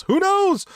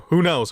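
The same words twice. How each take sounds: First: Exaggerated high repeat. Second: Said in the usual way. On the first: Real, not acted. Host speculating on Moxley going to Japan, exaggerated high repeat. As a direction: leap far up in pitch on the repeat.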